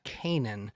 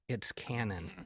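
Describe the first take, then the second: First: The name is said as Kanan. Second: The name is said as Cannon. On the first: The speaker calls it wrong. "Kyle's last name is not" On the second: The speaker calls it right.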